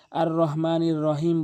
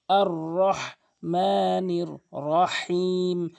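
First: আর রহমানির রহিম with a light হ; plain h in আর রহমানির রহিম; common mispronunciation. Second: Slow আর রহমানির রহিম with mid-throat হ; drawn-out আর রহমানির রহিম, strong হ; correct heavy ha. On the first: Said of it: "অধিকাংশ লোক যেই ভুলটি করে". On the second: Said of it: "হাটি হলকের মাঝখান থেকে". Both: Shown as a demonstration.

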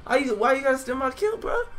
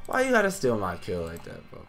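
First: Very high-pitched protest; high, whiny outrage; indignant high whine. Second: Subdued, wounded complaint; mock sad. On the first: Real, not acted. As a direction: complain in a squeal at a teammate. Protesting a stolen kill. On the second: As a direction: drop from outrage to playful hurt. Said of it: "I'm really sad right now".

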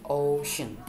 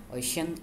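First: "ocean" with a drawn-out, stressed "o". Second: Said in the usual way. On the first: Shown as a demonstration. Teacher showing two syllables, stress on the "o" of "ocean". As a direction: stretch the "o" of "ocean", then let "cean" drop in unstressed. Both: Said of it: "the stressed syllables is in the O".

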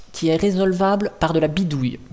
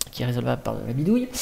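First: Said in the usual way. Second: Fast, lower repetition; hurried and lower; quick aside. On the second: Real, not acted. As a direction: rattle it off as an aside.

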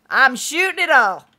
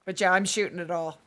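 First: Louder, with stress on "shooting"; emphatic repeat. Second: Said in the usual way. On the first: Shown as a demonstration. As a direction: punch "shooting" hard in "I'm shooting it all".

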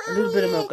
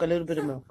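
First: High, chirpy offer; high sing-song. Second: Said in the usual way. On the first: Real, not acted.

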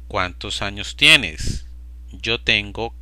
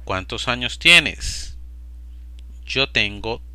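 No difference in how they are said.

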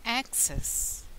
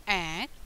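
First: "Access" with the first syllable stressed. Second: "access" split into ac, pause, cess; syllable by syllable. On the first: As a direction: say "Access" as one word, weight on Ac. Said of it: "The stress on the first syllable". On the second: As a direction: sound out "access" slowly in separate syllables. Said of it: "How do you say access". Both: Shown as a demonstration.

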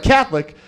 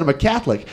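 First: Higher-pitched, disbelieving echo; mock incredulous. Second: Said in the usual way. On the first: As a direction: imitate a minister taken aback. Minister aghast at the answer.

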